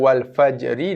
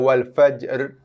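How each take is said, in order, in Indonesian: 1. Bunyi r terakhir diikuti vokal i. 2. Bunyi r terakhir tidak diikuti vokal apa pun. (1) "ra yang berbaris bawah" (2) "bunyi ra mati"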